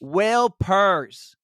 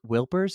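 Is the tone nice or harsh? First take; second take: harsh; nice. First: It is said in a harsh, scolding tone. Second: It is said in a nice, gentle tone.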